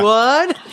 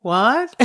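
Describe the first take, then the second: First: Louder, higher mock yell; yelled back. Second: Said in the usual way. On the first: Child in the barn answers mom, imitated yell back. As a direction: holler it back across the yard. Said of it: "I yell back at her". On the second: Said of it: "finally I stop and I go".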